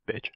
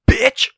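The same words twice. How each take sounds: First: The word is said in a plain, neutral way. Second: The word is said in an aggressive, forceful way. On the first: "just say bitch normally" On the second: "I don't know why it sounds so aggressive when you say it"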